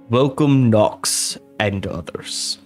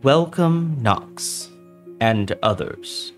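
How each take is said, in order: First: It is spoken in a deep voice. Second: It is spoken in a normal voice. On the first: The speaker calls it right. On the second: The speaker calls it wrong.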